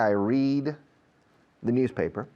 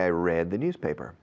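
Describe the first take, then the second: First: 'Read' sounds like the one in 'seed'. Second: 'Read' sounds like the one in 'bed'. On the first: It happens every day. "every day" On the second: It happened yesterday.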